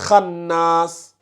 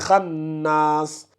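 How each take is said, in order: The two takes are said the same way.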